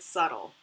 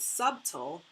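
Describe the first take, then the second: First: The b is silent, said like suttle. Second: The b is sounded, said like sub-tle.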